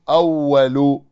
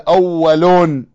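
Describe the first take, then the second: First: The word ends in a short -u vowel. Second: The word ends in -un with nunation. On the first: The speaker calls it right. "بالضم" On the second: The speaker calls it wrong. "ولا تقول أول بالتنوين"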